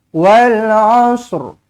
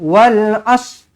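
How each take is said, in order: First: The word ends with a light r sound. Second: The word ends on s, with no r. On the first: The speaker calls it right. "Ada Ra dekat hujung dia kan" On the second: The speaker calls it wrong. "bukan macam tu, salah"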